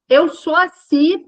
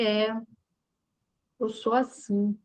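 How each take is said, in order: First: It is said in a proud, defiant tone. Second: It is said in a humble, accepting tone.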